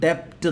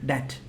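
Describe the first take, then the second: First: A b-like sound is heard before the t. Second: No b sound is heard before the t. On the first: The speaker calls it wrong. "നമ്മൾ ഡെപ്റ്റ് എന്ന് വായിക്കാമല്ലോ അല്ലേ, പക്ഷേ അതല്ല എൻ്റെ pronunciation" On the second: The speaker calls it right. "ബി ഇല്ലാതെ ഒന്ന് ശ്രദ്ധിച്ചു നോക്കിയേ, ഡെറ്റ് അതാണ് എൻ്റെ പ്രൊനൗൺസിയേഷൻ"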